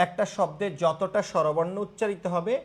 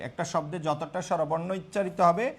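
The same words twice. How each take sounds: The two takes are said the same way.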